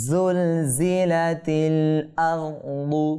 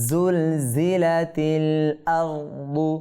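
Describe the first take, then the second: Both takes have the same delivery.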